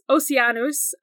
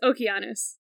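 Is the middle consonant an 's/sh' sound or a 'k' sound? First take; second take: s/sh sound; k sound. First: The middle consonant is a soft s or sh sound. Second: The middle consonant is a hard k sound. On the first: "So you say Oceanus" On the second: "if you want to say it in Greek"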